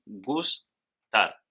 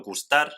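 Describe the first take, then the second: First: "gustar" broken into gus and tar; rising gus, pause, then tar for "gustar"; split into syllables. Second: Said in the usual way. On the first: Shown as a demonstration. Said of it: "dos sílabas". ("gustar" en dos sílabas: gus, tar) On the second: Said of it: "En el ejemplo gustar".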